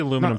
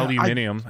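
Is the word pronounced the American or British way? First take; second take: American; British. First: It is said with four syllables, American style. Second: It is said with five syllables, British style.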